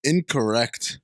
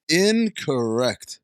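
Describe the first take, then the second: First: Said in the usual way. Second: "Incorrect" stretched slowly, leaning on IN; slow, emphatic "Incorrect"; drawn-out correction. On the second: Real, not acted. Repeated, drawn-out correction of review.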